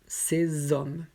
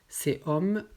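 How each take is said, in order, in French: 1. La consonne finale fait la liaison avec le mot suivant. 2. Les mots sont prononcés séparément, sans liaison. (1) "après avec la liaison" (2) "d'abord sans la liaison"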